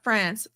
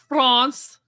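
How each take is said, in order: First: It is said with an English pronunciation. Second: It is said with a French pronunciation.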